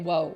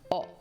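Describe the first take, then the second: First: It starts with a clear w sound. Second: It is a plain vowel with no w. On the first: The speaker calls it wrong. "You don't usually say whoa" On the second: The speaker calls it right. "it's actually pronounced O"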